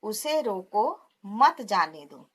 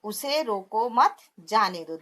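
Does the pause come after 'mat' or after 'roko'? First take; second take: after roko; after mat. First: There is a pause after 'roko'. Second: There is a pause after 'mat'. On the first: Stop him and do not let him go. "यहाँ पे पहले अल्प विराम लगाए उन्होंने रोको के बाद" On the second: Do not stop him; let him go. "उसे रोको मत पे लगाया है"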